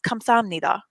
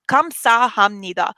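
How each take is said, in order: First: It is said quickly without the h sound. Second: It is said carefully with the h sound.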